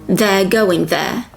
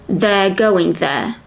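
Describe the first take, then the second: Both takes have the same delivery.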